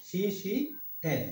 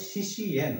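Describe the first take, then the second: First: শিশিয়েন drawn out very slowly as shi-shi-yen; slow pronunciation. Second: শিশিয়েন said slowly as shi-shi-yen; spelled-out pronunciation. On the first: Teacher repeating শিষ্যেন slowly, drawn-out pronunciation. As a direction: stretch শিশিয়েন syllable by syllable. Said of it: "হবে শিশিয়েন". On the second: Teacher showing how to read শিষ্যেন, slow syllables. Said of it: "এখানে কি লেখা আছে? হবে শিশিয়েন". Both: Shown as a demonstration.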